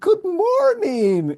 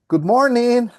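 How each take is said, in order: First: The greeting sounds warm and friendly. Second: The greeting sounds cold and distant. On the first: The speaker feels close to the other person. "and giving a hug. Familiarity" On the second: The speaker wants to keep the other person away. "It's so good that you're far from me, no?"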